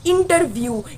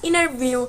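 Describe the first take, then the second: First: The t sound after the n is clearly pronounced. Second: The t sound after the n is dropped. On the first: "we say this" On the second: "they say it like"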